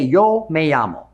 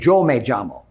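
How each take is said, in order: First: It is said with y and ll sounds. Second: It is said with j-like sounds.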